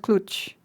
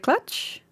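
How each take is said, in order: First: The vowel sounds like 'ooh'. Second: The vowel sounds like 'uh'. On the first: "the ooh" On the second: "The uh"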